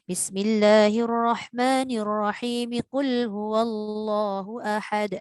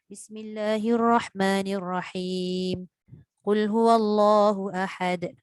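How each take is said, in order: First: The basmalah runs straight into the verse. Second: There is a pause after the basmalah.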